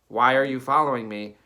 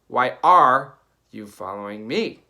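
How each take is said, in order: First: The emphasis falls in the usual natural places. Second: The emphasis falls on odd, unexpected parts. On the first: The speaker calls it right. "the sentence might be like" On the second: The speaker calls it wrong. "they're literally saying like"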